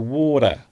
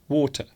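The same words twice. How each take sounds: First: The middle T sounds soft, like a D. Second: The middle T is pronounced as a clear T. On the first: "with an American accent ... It sounds more like the letter D" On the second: "in British English, we do often pronounce the T in water"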